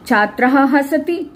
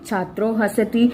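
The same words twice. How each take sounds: First: छात्रः said apart with an audible "ah" breath after it, then हसति; छात्रः हसति as two separate words, visarga sounded; split form with visarga. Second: छात्रो with a clear "o" ending, run straight into हसति; छात्रो हसति said as the joined form, no visarga; joined sandhi form. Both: Shown as a demonstration.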